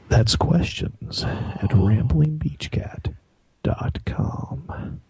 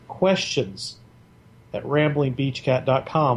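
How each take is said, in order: First: It is said in a low, sultry voice. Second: It is said in a plain, normal voice.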